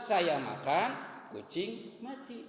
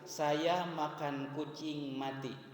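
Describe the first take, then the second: First: There is a pause after 'makan' before 'kucing'. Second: It runs on without a pause until the end. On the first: While the speaker was eating, a cat died. "Kita pindahkan berhentinya, berwakafnya pada kalimat sebelumnya. Saya makan, koma, berhenti" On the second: The speaker ate a cat and then died. "Kita berwakaf pada kalimat terakhir"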